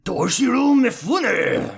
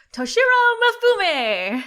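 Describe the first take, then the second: First: High, loud, drawn-out samurai cry; Toshiro Mifune. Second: Super shouty, raised-pitch samurai shout; Toshiro Mifune. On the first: Host outdoes co-host's attempt, hammed-up samurai impression. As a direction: stretch the name out like a samurai, slow and loud. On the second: Co-host attempts an impression on request, shouting. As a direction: bellow the name like a shouty samurai. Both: Acted. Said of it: "in your best Toshiro Mifune impression".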